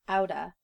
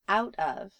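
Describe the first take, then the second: First: The words run together into one reduced form. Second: Both words are pronounced fully and separately.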